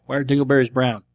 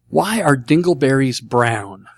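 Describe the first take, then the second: First: "Why are dingleberries brown" at a quick, even riddle-teller's pace; riddle inflection. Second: Spaced-out, deliberate question; slow reading. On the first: Shown as a demonstration. Host retelling a listener's riddle, "Why are dingleberries brown" in brisk setup inflection. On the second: Real, not acted. Host reading out a listener's question, slowly and deliberately. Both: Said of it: "With the right inflection".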